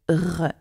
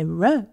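First: The R is a throaty French-style sound. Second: The R is a soft English-style sound. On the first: The speaker calls it right. "we say R" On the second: The speaker calls it wrong. "we don't say R"

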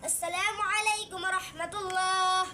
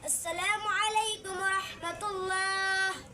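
First: The phrase is recited at a fast pace. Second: The phrase is recited at a slow pace. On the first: "একটু চালু করেন। সেক্রেটারি চালু।" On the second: "আস্তে আস্তে চালানো"

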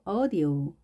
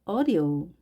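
No difference in how they are said.

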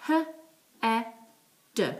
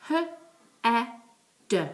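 Both takes have the same delivery.

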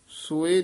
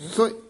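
First: The word is said slowly, drawn out. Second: The word is said quickly, run together. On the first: The speaker calls it wrong. "ਸੋਏ ਨਹੀਂ ਕਹਿਣਾ" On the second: The speaker calls it right. "ਸੋਏ ਇਹ ਛੇਤੀ ਬੋਲਣਾ"

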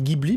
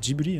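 First: The name is said with a French pronunciation. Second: The name is said with a Japanese pronunciation. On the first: "nous on dit Ghibli" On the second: "en japonais ça se dit Ghibli"

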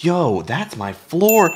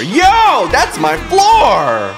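First: The line is said in a plain, flat way. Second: The line is said in an excited, hyped way.

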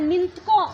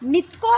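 First: It is said with a nasal before the t. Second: It is said without a nasal before the t. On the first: The speaker calls it right. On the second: The speaker calls it wrong. "ನಿತ್ಕೋ ಅಲ್ಲ"

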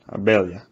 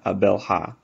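First: The L and H blend into one sound. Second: The L and H are said as separate sounds. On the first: The speaker calls it right. "The L and H sort of combine" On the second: The speaker calls it wrong. "whatever you do, it's not Abelha"

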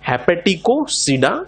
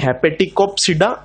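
First: The word is said without a p sound. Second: The word is said with a p sound. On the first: The speaker calls it right. "पी silent है" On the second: The speaker calls it wrong. "ना कि"

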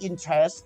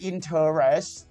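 First: The word is shortened to two spoken syllables. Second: Every written syllable of the word is sounded out. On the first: "แต่ตอนอ่านว่า" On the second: "ตอนเขียนคำว่า"

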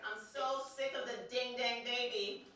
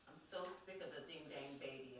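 First: It is said loudly. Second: It is said fairly quietly.

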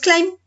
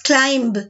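First: The final b is not pronounced. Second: The final b is clearly pronounced. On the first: The speaker calls it right. "decimos climb solamente" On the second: The speaker calls it wrong. "no decimos climb"

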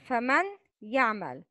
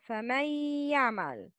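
First: The n is pronounced clearly before the y. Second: The n merges into a doubled, nasalized y. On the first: "It's written as فمن يعمل" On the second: "but pronounce it as فمن يعمل"

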